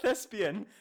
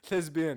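First: It is said with an Arabic-style pronunciation. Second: It is said with a standard English pronunciation. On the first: The speaker calls it wrong. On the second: The speaker calls it right.

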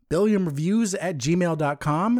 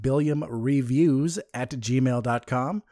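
First: It is said fast. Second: It is said slowly.

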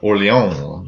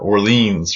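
First: It is said with a French-style pronunciation. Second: It is said with an American pronunciation.

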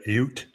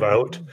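First: It is said with a Canadian accent. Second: It is said with a standard accent.

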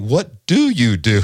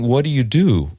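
First: The question sounds pointed and accusing. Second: The question sounds plain and neutral. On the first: It implies the listener's life choices are being judged. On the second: A simple question about someone's job.

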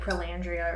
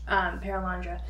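First: The name ends in a -dria sound. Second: The name ends in a -dra sound. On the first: The speaker calls it wrong. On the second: The speaker calls it right.

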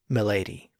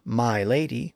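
First: My is reduced and run into lady. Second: My is said fully and distinctly. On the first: "usually pronounced as milady" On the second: "with a very distinct my"

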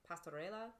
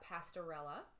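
First: The word is said with Spanish sounds. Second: The word is said with English sounds.

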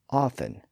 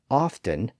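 First: The t sound in the middle is silent. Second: The t sound in the middle is pronounced. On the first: "Elizabeth said often" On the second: "Hart apparently said often"

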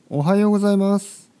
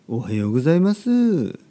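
First: It has the standard Tokyo intonation. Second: It has an unusual, regional-sounding intonation. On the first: It sounds like someone from Tokyo. "これが東京ですけど" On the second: It sounds like someone from another region. "ちょっとあれどこの人かな、東京ではあんまり聞かないですね"

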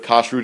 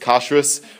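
First: It ends with a t sound, modern Hebrew style. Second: It ends with an s sound, Ashkenazi style.

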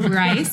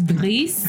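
First: The name is pronounced the English way. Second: The name is pronounced the French way. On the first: The speaker calls it wrong. "It's not Bryce" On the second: The speaker calls it right. "It's French. So that's why we're rolling our R's"

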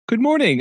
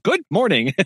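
First: It is said in a calm, even tone. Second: It is said in a flustered, irritated tone.

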